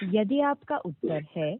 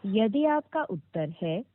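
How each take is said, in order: Both takes have the same delivery.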